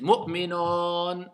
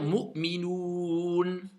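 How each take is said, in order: First: The final vowel is an open 'o' sound. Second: The final vowel is a long 'oo' sound. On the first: The speaker calls it wrong. "certains vont faire Mu'minon" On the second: The speaker calls it right. "je dois dire Mu'minoun"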